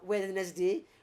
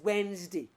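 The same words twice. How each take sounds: First: The word is pronounced just as it is spelled. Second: The word is not pronounced as it is spelled. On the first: The speaker calls it wrong. "It sounds by spelling, it sounds as if it's what" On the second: The speaker calls it right. "in reality, it's what is"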